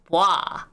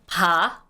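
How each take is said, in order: First: The syllable is a quick 'bwa' with a w-glide. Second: The syllable is a plain 'ba' without a glide. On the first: The speaker calls it right. "the correct way of saying this, you should actually say is ba, like, boa ... but faster" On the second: The speaker calls it wrong. "you can say it as just B A"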